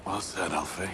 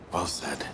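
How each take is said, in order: First: Said in the usual way. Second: Softer whispered echo of "Well said". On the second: Acted. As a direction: breathe "Well said" under the breath. Repeated under breath.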